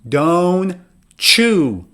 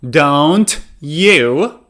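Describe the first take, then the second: First: The t and y merge into a ch. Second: The t and y stay separate sounds. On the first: "so you would say ch" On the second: "For example"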